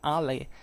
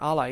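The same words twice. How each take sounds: First: The word has a traditional, non-classical Latin pronunciation. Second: The word has the restored classical Latin pronunciation.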